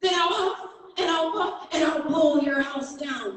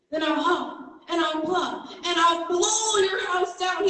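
First: Mock growl, high but only a bit louder; a storyteller's mild wolf growl. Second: High, loud roaring wolf threat; roared. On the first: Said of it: "growled the wolf". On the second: Acted. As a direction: roar it with the wolf's loudest voice. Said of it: "he roared with the loudest voice".

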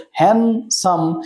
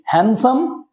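First: handsome broken into two beats, hand, then সাম; split into syllables. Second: Said in the usual way. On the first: Shown as a demonstration. Teacher showing students two syllables, handsome split in two with a pause. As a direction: say handsome with a clear stop between its two syllables. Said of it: "দুবার break করছে বা দুবার থামতে হচ্ছে". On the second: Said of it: "দুবার break করছে".

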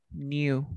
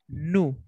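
First: "new" said as "nyoo", with y-glide; British pronunciation. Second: "new" said as "noo", no y-glide; American pronunciation. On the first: Teacher contrasts British English for the class, "new" as "nyoo". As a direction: put a y-sound after the n in "new". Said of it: "En inglés británico se dice". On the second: Teacher shows students the American form, "new" as "noo". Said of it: "En inglés americano, americano, decimos". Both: Shown as a demonstration.

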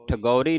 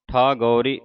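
First: ਠਗੌਰੀ with a short first vowel; wrong pronunciation. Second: ਠਾਗੌਰੀ with a long thaa; correct pronunciation. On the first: Teacher warning the congregation off a misreading, wrong pronunciation. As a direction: keep tha in ਠਗੌਰੀ short. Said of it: "ਠਗੌਰੀ ਨਹੀਂ ਕਹਿ ਦੇਣਾ". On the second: Teacher showing the long vowel on th, correct pronunciation. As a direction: stretch the first vowel of ਠਾਗੌਰੀ. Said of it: "ਠੱਠੇ ਨੂੰ ਕੰਨਾ ਉਚਾਰਨ ਕਰਨਾ". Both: Shown as a demonstration.

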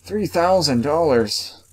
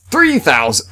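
First: Stunned repeat. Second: High, loud cry of disbelief at the price; yelling a shocking price aloud; shocked outburst. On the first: Repeating the shocking price. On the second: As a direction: blurt the price out in real shock. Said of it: "I think I just had a miniature heart attack". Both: Real, not acted.

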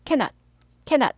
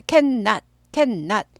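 First: "cannot" as short ka-not; single N. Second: "cannot" as two parts, can-not; both Ns sounded. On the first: Teacher contrasts the joined spelling, single N. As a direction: move quickly through one N. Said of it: "N이 하나만 발음돼요". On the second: Teacher explains the spaced spelling, both Ns sounded. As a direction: lengthen the N between can and not. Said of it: "둘 다 발음은". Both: Shown as a demonstration.

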